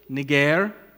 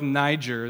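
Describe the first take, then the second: First: The name is said in its Greek pronunciation. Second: The name is said like the start of Nigeria. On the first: This is how the name sounded originally. "technically it's pronounced Niger" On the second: This avoids a word with negative connotations today. "We can go with Niger, though, because of Nigeria"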